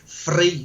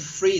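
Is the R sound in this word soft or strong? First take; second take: strong; soft. First: The R is strong and overpronounced. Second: The R is said plainly and softly. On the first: "they have the strong R, they overpronounce it" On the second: "they don't say free"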